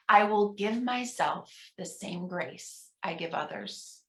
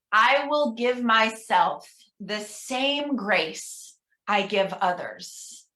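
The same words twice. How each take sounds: First: Softer, murmured repeat; soft responsive echo. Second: Slow, measured leader's reading; slow affirmation reading. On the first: Minister quietly repeating the affirmation with the congregation. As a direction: say it under your breath along with them. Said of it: "pause and encourage you at home". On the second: Minister reading an affirmation to the congregation, slow. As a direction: take your time on every word. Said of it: "I'm gonna read each one". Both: Shown as a demonstration.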